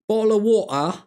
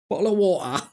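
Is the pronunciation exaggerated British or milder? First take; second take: exaggerated British; exaggerated British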